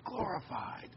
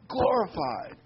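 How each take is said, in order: First: Glorified said softer and higher, lingering on it; hushed, reverent Glorified; emphasized softly. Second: Glorified said firmly in full voice, falling at the end; firm, declared Glorified; emphasized. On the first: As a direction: let Glorified float up quietly in awe. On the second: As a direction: land Glorified with a firm fall. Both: Shown as a demonstration. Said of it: "I want to emphasize the word glorified".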